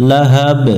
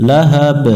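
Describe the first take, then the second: No difference in how they are said.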